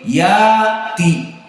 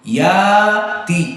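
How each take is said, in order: No difference in how they are said.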